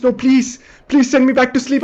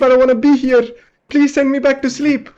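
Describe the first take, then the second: First: Higher, desperate begging; pleading. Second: Even higher, cracking plea; more desperate pleading. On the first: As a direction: beg them to put you under. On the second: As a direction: beg harder, near tears. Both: Retold or imitated. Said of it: "And then I'm like".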